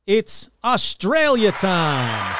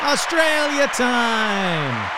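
First: Put-on drawn-out Australian accent, slow and loud; hammy Aussie announcer, stretching Australia; slow put-on Australian accent, louder; bad Australian accent. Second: Put-on slow Australian accent, pitched higher and louder; higher, slower put-on Australian accent; bad Australian accent, higher. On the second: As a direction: stretch Australia out in a hammy Aussie drawl, higher. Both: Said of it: "my bad Australian accent".

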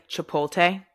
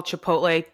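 First: Chipotle as chuh-POTE-lay, clear t before l; proper Chipotle; Chipotle said right. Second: Chipotle said as chuh-POLE-tay, l before t; mispronounced Chipotle. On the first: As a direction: say Chipotle correctly. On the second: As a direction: swap the sounds in Chipotle. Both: Shown as a demonstration. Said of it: "people call Chipotle".

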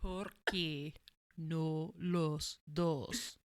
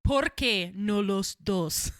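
First: Scottish accent. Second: Put-on slow, loud Spanish in Scottish accent. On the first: Shown as a demonstration. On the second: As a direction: say "Por qué no los dos" with a Scottish lilt. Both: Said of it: "really hard to say in a Scottish accent".

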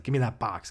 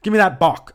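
First: Said in the usual way. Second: Put-on loud, high Taiwanese-accented demand, "bok" with the ending dropped; hammed-up Taiwanese accent on "bok"; mock Taiwanese accent. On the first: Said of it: "He'd always say box". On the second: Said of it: "He'd say".

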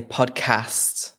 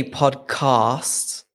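First: "podcast" with the A of "cat"; slow, short-A "podcast". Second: "podcast" with AH as in "father" in the second syllable; long-A podcast. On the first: Shown as a demonstration. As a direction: say "podcast" with "cast" rhyming with "gassed", short A. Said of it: "and I say podcast". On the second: Retold or imitated. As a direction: say "podcast" as "pod-cahst". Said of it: "So you say podcast".

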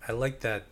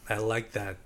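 The two takes are said the same way.

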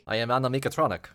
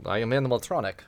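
First: "Annemiekatronic" with "meek" slipped into the middle; quicker, say "Annemiekatronic" as a run-together pun; punned animatronic. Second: "animatronic" in its usual five syllables; animatronic said straight. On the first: Game master correcting the player, punned animatronic as "Annemiekatronic". Pun name repeated after mishearing. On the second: Game master introducing the machine character, animatronic said straight. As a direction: say "animatronic" with no extra "meek" inside. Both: Acted.

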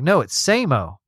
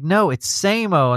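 First: Said in the usual way. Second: "No, it's Samo" said higher and slower, leaning on "Samo"; drawn-out "No, it's Samo" with weary insistence; exasperated correction. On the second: Retold or imitated. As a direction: spell out "Samo" again, fed up. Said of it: "Oh my God, no".

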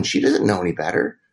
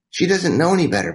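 First: Said in the usual way. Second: Higher, with a firm stress on know in "She doesn't know any better"; emphatic repeat. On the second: Retold or imitated. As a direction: drive home "know" in the repeat, ending with a fall. Friend's advice repeated for emphasis.

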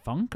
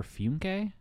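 First: "Funk" said as a single syllable; one-syllable pronunciation. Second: "Funke" said with an added final syllable; two-syllable pronunciation. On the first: Host wonders how the author's name goes, "Funk" in one syllable. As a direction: say "Funk" without any final vowel. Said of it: "is it Funk or Funke?". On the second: Host offers the funnier name option, "Funke" in two syllables. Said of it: "I'm gonna say Funke 'cause it's funnier". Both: Shown as a demonstration.

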